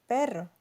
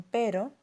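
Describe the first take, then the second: First: Perro with a rolled, trilled rr. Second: Pero with a single quick tap r; pero, one light flap of the tongue. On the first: Teacher contrasts perro against pero. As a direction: roll the rr in perro. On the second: Teacher contrasts pero against perro. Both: Shown as a demonstration. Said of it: "la distinción de los fonemas r y r".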